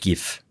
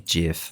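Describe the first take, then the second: First: The word is said the German way. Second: The word is said the English way. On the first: "in German I would call it GIF" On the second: "I think the proper English pronunciation would be GIF"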